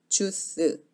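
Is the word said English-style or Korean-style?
Korean-style. It is said Korean-style, with unrounded lips. "입술을 오므리지 않으면 주스, 주스 이렇게 들리죠"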